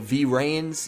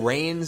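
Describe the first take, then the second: First: The word begins with an audible V sound. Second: The word begins without any V sound.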